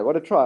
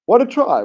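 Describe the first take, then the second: First: Said in the usual way. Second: High, loud burst of delight; excited shout. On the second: Real, not acted. Commentator hailing the try, excited shout.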